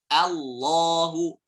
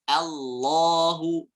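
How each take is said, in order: Both takes have the same delivery.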